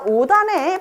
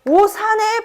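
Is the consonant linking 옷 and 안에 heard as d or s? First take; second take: d; s. First: A d sound carries into the next vowel. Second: The s sound carries straight into the next vowel. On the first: It means inside the clothes. The speaker calls it right. "시옷을 대표음 디귿으로 바꿔주고 그리고 나서 연음을" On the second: It sounds like the place name Osan. The speaker calls it wrong. "그냥 연음만 시켜주면"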